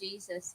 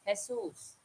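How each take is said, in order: First: The name is said the usual English way. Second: The name is said the local Philippine way. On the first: This is how outsiders say the name. The speaker calls it wrong. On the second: This is how people in the Philippines say the name. The speaker calls it right.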